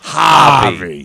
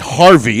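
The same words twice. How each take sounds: First: The R sound after the first vowel is dropped. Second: The R sound after the first vowel is pronounced. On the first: This is how the character says it. "It's Harvey" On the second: This is how most people say it. "they don't say Harvey"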